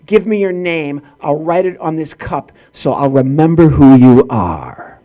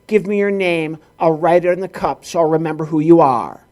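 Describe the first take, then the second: First: Imitated clerk building to a loud, low, drawn-out roar; hammed-up furious clerk; mock angry yell. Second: Imitated clerk reciting a routine; mock mechanical recitation; by rote. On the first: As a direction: start firm, end in a slow monstrous bellow. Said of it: "then she yelled at him". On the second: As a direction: rattle it off as a memorized script. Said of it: "just going by rote".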